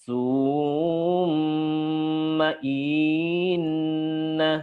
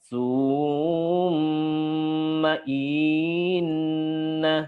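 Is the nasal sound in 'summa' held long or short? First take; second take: long; long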